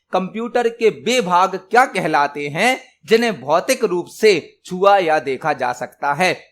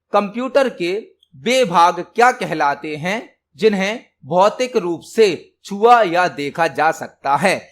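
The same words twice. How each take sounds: No difference in how they are said.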